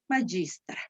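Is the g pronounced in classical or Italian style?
Italian. The g has the Italian Latin sound. "en la pronunciación italiana dice"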